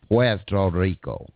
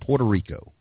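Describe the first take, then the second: First: It is said with an attempted Spanish accent. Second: It is said with a plain American accent.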